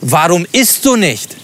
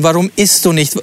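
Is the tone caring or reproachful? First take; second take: reproachful; caring. First: It is said in an annoyed, reproachful tone. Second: It is said in a gentle, caring tone. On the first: The speaker is impatient and blames her. "Oder vielleicht gar vorwurfsvoll?" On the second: The speaker is concerned about her well-being. "meint er das jetzt ganz lieb und ganz fürsorglich"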